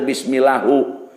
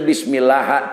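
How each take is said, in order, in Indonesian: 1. Kata ini diakhiri dengan vokal u. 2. Kata ini diakhiri tanpa vokal di akhir. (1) "teu bismillahu" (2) "henteu bismillah"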